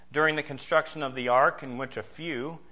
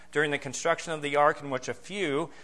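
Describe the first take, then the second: No difference in how they are said.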